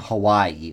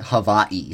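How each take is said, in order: First: It is said with the usual English pronunciation. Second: It is said with a native Hawaiian pronunciation.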